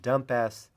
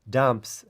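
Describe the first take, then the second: First: The final s is said as a separate syllable. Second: The word is said as one syllable. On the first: "a little funny pronunciation" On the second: "Instead of calling this dumps"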